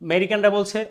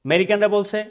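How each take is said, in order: The two takes are said the same way.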